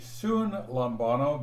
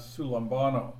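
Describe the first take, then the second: First: An N sound is heard before the L. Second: The N merges into the L sound. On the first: The prefix and root are kept separate. "So it would be sun lambano, but it combines" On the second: The prefix is joined to the word. "The first N changes to an L, just like it does here on sulambano"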